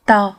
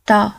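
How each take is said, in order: First: The two words merge into one short syllable. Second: The two words merge into one short syllable.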